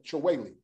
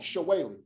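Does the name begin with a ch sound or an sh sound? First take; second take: ch; sh. First: The name begins with a hard ch sound. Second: The name begins with a soft sh sound. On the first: This is the form used by people from the name's origin. The speaker calls it right. "that CH is going to be ch" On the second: This is the anglicized form everyone used. The speaker calls it wrong. "how you get a SH sound out of a CH"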